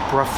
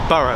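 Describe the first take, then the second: First: It is said as a shorter brough. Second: It is said like the word borough. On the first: This is how the name was actually said. "I think it was pronounced Brough" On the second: This is how the spelling suggests it is read. "It looks like Borough"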